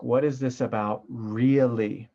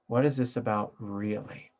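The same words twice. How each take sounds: First: What is this about really, leaning on really; slow, weighted question ending on really; stress on really. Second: Said in the usual way. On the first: Shown as a demonstration. Teacher leans on really for students. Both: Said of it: "throw the emphasis word in there".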